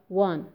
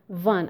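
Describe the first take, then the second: First: The word begins with a w sound. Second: The word begins with a v sound. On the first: The speaker calls it right. "instead of one" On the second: The speaker calls it wrong. "I have heard people saying van. Number one, van"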